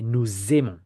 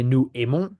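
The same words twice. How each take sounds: First: Nous aimons linked with Z, nou-zaimons; French liaison with Z. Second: Nous aimons with no Z, nou-aimons; French without liaison; no liaison, wrong. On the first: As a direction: join nous to aimons with a Z sound. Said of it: "We don't say nous aimons". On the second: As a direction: leave nous and aimons apart, no Z. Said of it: "We don't say". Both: Shown as a demonstration.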